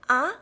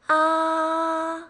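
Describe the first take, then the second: First: The pitch rises from low to high. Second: The pitch stays high and level. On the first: "the second tone, it rises" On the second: "same level, it's a little high pitched"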